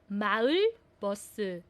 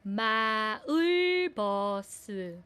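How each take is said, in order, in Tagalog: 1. Ang salita ay binibigkas nang mabilis. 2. Ang salita ay binibigkas nang mabagal.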